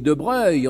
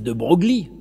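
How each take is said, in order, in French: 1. Le nom se termine par un son 'uy'. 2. Le nom se termine par un son 'glee'. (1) "on dit de Breuil" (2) "on dit pas Broglie"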